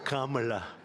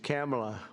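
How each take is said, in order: First: The first syllable sounds like 'calm'. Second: The first syllable sounds like 'cam'. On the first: "as opposed to Calm" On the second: "It's Cam, right? Cam, as opposed to Calm"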